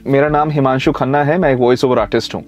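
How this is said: The words run together in one smooth flow. The speaker calls it right. "एक flow होता है बोलने का।"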